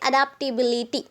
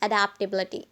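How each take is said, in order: First: It is said in an Indian accent. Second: It is said in an American accent.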